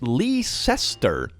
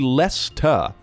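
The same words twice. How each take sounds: First: The name is sounded out following its spelling. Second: The name is said the short local way. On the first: This is how the child's mother says it. The speaker calls it wrong. "the mother pronounces the word Leicester as Leicester" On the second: This is how people in England say it. The speaker calls it right. "It's actually Leicester"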